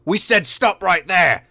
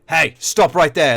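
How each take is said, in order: First: Higher, harder repeat, slow and deliberate; raised warning. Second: Said in the usual way. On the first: Acted. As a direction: warn them a second time, losing patience. Knight repeats, louder.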